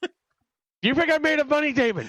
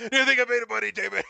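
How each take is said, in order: First: High, hammed-up stingy dad voice; mock fussy dad. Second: Higher, hammed-up stingy dad; mock fussy dad. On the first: Friend repeating the line as a shrill cheapskate dad. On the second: Host echoing the line as a shrill cheapskate dad. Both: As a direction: squeak it like a penny-pinching father.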